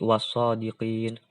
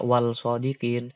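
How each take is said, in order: First: The l is merged into the following s sound. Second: The l is clearly pronounced before the s. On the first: The speaker calls it right. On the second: The speaker calls it wrong. "jangan dibaca"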